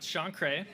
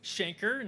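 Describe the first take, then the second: First: The name ends with a 'kray' sound. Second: The name ends with a short 'ker' sound. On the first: The speaker calls it wrong. "not Shankray" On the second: The speaker calls it right. "it's Shanker"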